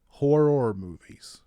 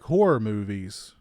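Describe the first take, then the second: First: The words are said slowly and carefully. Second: The words are said quickly and run together.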